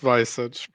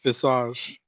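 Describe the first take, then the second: First: The word is said with an English pronunciation. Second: The word is said with a French pronunciation. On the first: The speaker calls it wrong. "not visage" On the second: The speaker calls it right. "It's pronounced visage, ... It's French also"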